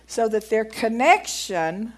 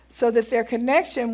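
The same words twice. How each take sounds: First: "connection" leaned on slowly, ending on a rise; stress on connection. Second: Said in the usual way. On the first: Shown as a demonstration. Preacher pointing out a key word while reading, "connection" stressed and slowed. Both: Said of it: "emphasis on that word".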